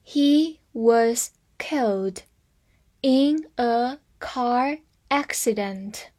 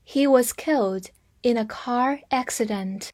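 First: Slow, in two parts; slow reading. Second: Said in the usual way. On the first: Shown as a demonstration. Teacher reading slowly to students, in chunks. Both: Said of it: "慢慢读。".

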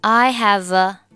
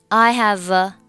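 Both takes have the same delivery.

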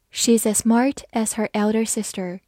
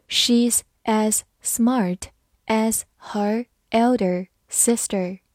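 First: Said in the usual way. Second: Slow read. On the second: Shown as a demonstration. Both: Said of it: "好，慢慢来读".

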